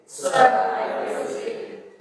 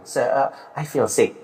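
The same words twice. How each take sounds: First: High, whispered laugh through the words; giggling. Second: Slow, quiet and weak, truly unwell; sick voice. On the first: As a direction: break into giggles saying it. (sambil cekikikan) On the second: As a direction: let it sag like you really feel ill. (suara orang yang benar-benar sakit) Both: Shown as a demonstration. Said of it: "Sekarang coba bilang".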